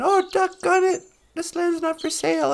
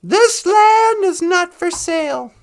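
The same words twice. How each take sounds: First: Lightly voiced grudging concession; mock chagrin, starting higher then easing; thwarted bad guys. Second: Mock-heroic proclamation, high, loud and slow; Val Kilmer. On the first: Bad guys giving in to the hero, grudging. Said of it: "they all went". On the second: Hero to crooked cops, proclaiming the land unsellable. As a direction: stretch it out as a grand movie declaration. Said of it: "Val Kilmer was all".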